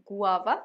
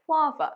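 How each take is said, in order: First: গুয়াভা said as three parts, "gu-a-va", rising; wrong pronunciation. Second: গুয়াভা said as "GWAA-va", first syllable high and falling; correct pronunciation. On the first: Teacher quoting what many people say, mispronounced গুয়াভা. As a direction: say গুয়াভা with a separate "gu" at the start. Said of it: "এটা ভুল". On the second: Teacher correcting a common mistake, careful pronunciation of গুয়াভা. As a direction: run the start of গুয়াভা into one stressed "gwaa". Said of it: "সঠিক উচ্চারণ". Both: Shown as a demonstration.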